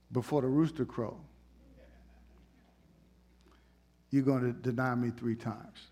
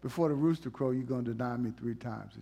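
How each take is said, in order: First: Calm Jesus. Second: Lower, softer, calm; a touch of a gentle Jesus. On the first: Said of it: "Jesus said". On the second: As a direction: say it kindly, not angry. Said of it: "he wasn't angry with him". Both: Retold or imitated.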